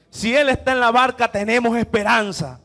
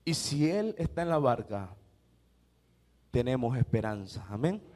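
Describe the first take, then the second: First: Louder, ringing proclamation; proclaimed hope. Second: Lower, softer, tender assurance; hushed hope. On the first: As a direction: declare it to the whole church. Repite la frase con fuerza. (proclamación fuerte de esperanza) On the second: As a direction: let it land softly. Susurro tras el clímax. (esperanza dicha en voz baja y tierna) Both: Acted.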